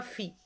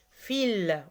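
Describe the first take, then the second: First: Fi said without the final L, just "fee"; wrong way, no L. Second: Fil with a clear L at the end; right way, L sounded. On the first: Teacher showing pupils the mistake, fi without L. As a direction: drop the L of fil and say only fi. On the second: Teacher correcting pupils, Fil with clear final L. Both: Shown as a demonstration. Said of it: "On prononce le L ici".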